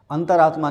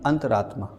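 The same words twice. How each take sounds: First: अंतरात्मा split as antar-aatma; wrong form. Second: अंतरात्मा joined as anta-raatma, falling; correct form. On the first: Teacher rejects a misspelling, अंतरात्मा broken after "antar". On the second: Teacher corrects the class, अंतरात्मा joined with "raa". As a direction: run अंतरात्मा together, lower and softer. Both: Shown as a demonstration. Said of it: "नहीं".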